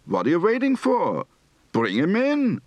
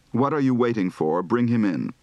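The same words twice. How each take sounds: First: Higher, insistent Yiddish lilt; urgent Yiddish intonation. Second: Said in the usual way. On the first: Shown as a demonstration. Teacher demonstrates impatient Yiddish tune, higher. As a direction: push it up and urge them. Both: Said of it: "Recite the following practice phrases".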